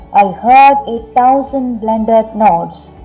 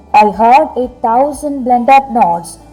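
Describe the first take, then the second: Both takes have the same delivery.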